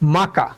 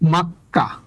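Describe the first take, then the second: First: The middle k sound is short and single. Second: The middle k sound is held and doubled. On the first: The speaker calls it wrong. "উচ্চারণ হবে মাকা" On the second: The speaker calls it right. "এটা সঠিক উচ্চারণ হচ্ছে মাক্কা"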